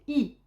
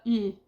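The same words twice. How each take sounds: First: The vowel is said with widely spread, smiling lips. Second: The vowel is said with relaxed, unspread lips. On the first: The speaker calls it right. "c'est un I qui est vraiment souris" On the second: The speaker calls it wrong. "c'est pas I"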